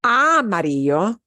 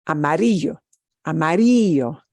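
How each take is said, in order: First: "amarillo" punched on the opening A, AH-marillo; wrong stress on first syllable. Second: "amarillo" punched on RI, ama-RI-llo; stress on second-to-last syllable. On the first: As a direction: lean long on the first "a" of "amarillo". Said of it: "It's not". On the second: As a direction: lean into "ri" of "amarillo", then drop. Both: Shown as a demonstration.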